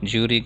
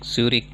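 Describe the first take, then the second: First: The name is said in a desi accent. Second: The name is said in a standard accent.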